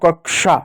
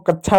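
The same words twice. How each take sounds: First: The middle consonant is said with an sh sound. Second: The middle consonant is said without an sh sound. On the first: The speaker calls it right. "तो श पढ़ते हैं" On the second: The speaker calls it wrong. "इसको कक्षा नहीं पढ़ते हैं"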